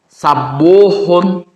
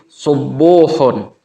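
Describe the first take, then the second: First: The first vowel is a. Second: The first vowel is u. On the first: "juga bisa dibaca fathah" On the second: "sinnya itu bisa dibaca doma"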